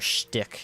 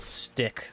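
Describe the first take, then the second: First: The word begins with a sh sound. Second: The word begins with a plain s sound. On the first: The speaker calls it right. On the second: The speaker calls it wrong.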